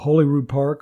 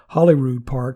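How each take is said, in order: First: The name is said in a non-Scottish way. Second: The name is said the Scottish way.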